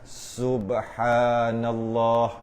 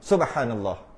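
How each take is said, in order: First: The phrase is stretched out very slowly. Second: The phrase is said at ordinary speed. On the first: The speaker calls it wrong. "Baru dua. Dia bukan gitu" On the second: The speaker calls it right.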